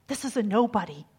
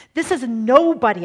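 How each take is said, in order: First: Said in the usual way. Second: This is a nobody proclaimed loud, stress on is; loud emphatic repeat. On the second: Shown as a demonstration. Preacher driving the point home, loud proclamation. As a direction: preach This is a nobody at full force.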